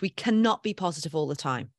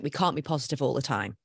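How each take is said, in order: First: Cannot spelled out in full and leaned on; firm weight on cannot, falling at the end; stress on cannot. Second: Said in the usual way. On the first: Shown as a demonstration. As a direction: hit cannot as a settled fact.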